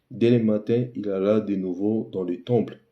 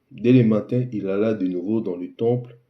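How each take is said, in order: No difference in how they are said.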